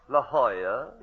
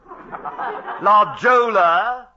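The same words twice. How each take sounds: First: The name gets the local Californian pronunciation. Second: The name gets an English-style reading. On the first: "the way they pronounce things" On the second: "They call"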